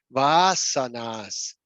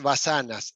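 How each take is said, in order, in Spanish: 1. La vocal a se pronuncia larga. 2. La vocal a se pronuncia corta. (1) "implica la repetición dos veces de la letra" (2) "no es vasanas"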